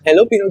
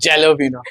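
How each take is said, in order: First: The word begins with an 'h' sound. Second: The word begins with a 'j' sound. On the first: The speaker calls it right. "वो हेलोपिनो की तरह से pronounce होता है" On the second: The speaker calls it wrong. "पर जे है ना"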